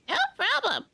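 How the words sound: A put-on voice with a shifted throat. The speaker calls it right. "you can't see me shift my throat here, but I am"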